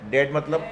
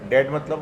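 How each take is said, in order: Both takes have the same delivery.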